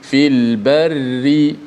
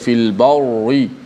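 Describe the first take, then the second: First: The r sound is light and thin. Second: The r sound is heavy and thick. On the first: The speaker calls it right. "kita baca dengan ri" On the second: The speaker calls it wrong. "tidak boleh baca fil barri"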